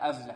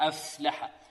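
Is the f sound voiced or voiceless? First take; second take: voiced; voiceless. First: The f sound has some voicing. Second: The f sound is breathy and voiceless. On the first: The speaker calls it wrong. "يأتي في رأي شيء من الجهر" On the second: The speaker calls it right. "الفاء هنا مهموسة غير مجهورة"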